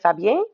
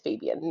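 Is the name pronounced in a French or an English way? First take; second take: French; English. First: The name is said with French pronunciation. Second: The name is said with English pronunciation. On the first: This is how people say it where the speaker grew up. "I come from a French province and we say Fabien" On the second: This is how the audiobook says the name. "at least according to the audiobook, is Fabien"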